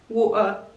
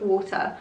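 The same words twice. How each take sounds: First: The T is dropped with a glottal stop. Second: The T is clearly pronounced.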